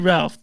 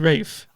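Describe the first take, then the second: First: The name is said with an audible 'l'. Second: The name is said as 'Rafe', without 'l'. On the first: This is not how it is said in England. The speaker calls it wrong. "they don't say Ralph" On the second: This is how it is said in England. The speaker calls it right. "They say Rafe"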